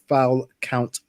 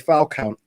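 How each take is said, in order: First: The phrase is said slowly and deliberately. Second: The phrase is said at a normal pace.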